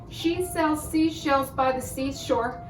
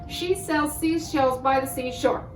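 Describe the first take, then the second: Both takes have the same delivery.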